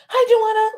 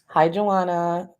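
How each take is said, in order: First: It is said in a high-pitched, annoying voice. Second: It is said in a normal speaking voice. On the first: It imitates someone else saying it. "it would be like a high pitch" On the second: It is said in the speaker's own way. "I'm gonna just say it my way"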